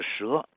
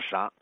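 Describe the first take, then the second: First: The word is said as she. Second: The word is said as sha. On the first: This is the usual modern reading. "这个紫金应该是蛇，白蛇的蛇" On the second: This is the reading that makes the poem rhyme. "它读成啥"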